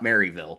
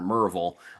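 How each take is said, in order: First: The town name is said the outsider way. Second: The town name is said the local way. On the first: This is how outsiders say it. The speaker calls it wrong. "It's not Maryville" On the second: This is how people there say it. The speaker calls it right. "which is the correct way to pronounce that"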